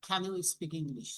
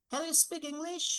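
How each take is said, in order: First: Said in the usual way. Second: English said higher with the voice going up at the end; rising intonation. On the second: Shown as a demonstration. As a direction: ask it with the pitch rising on English. (English-এ গলা উপরে তুলে প্রশ্ন) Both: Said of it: "এইটা আমরা কি up করব".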